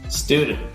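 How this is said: It is said with an American accent.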